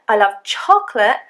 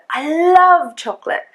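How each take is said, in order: First: The word chocolate carries the main stress. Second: The word love carries the main stress. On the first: It is chocolate rather than any other food. "then it means it's chocolate" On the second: The liking is very strong, not just okay. "That's probably the word that I would stress in this sentence"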